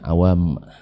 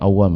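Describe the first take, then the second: First: The m sound is doubled and held longer. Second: The m sound is short and single. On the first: It refers to the general public. The speaker calls it right. "Yang bertasydid itu adalah mimnya" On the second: It refers to people of strong resolve. The speaker calls it wrong. "bukan awam ya"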